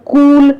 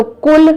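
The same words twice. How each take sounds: First: "कूल" with a drawn-out oo; long oo in कूल. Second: "कुल" with a brief u; short u in कुल. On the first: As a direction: hold the vowel of "कूल". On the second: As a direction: keep the vowel of "कुल" short. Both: Shown as a demonstration. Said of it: "एक मात्राओं का प्रयोग".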